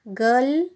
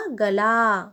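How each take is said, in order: First: गल as one syllable with short a; careful model reading of गल; short vowel. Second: गला with a drawn-out final aa; long final vowel. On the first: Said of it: "पहले हम उच्चारण करते हैं". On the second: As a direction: stretch the end of गला. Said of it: "ल में आ की मात्रा". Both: Shown as a demonstration.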